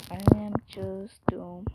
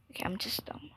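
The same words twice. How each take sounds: First: Said in the usual way. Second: Whispered "I'm just dumb", hushed and fed up; soft unvoiced self-scolding whisper. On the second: Real, not acted. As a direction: say it under your breath to yourself. Whispered take of repeated line.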